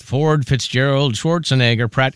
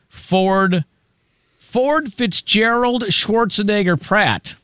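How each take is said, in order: First: Ford, Fitzgerald, Schwarzenegger, Pratt slowed like lyrics; sing-song name list. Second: Ford Fitzgerald Schwarzenegger Pratt spelled out slowly and high; drawn-out full name. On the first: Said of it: "It sounds like a song". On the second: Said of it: "Good luck learning to spell that". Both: Acted.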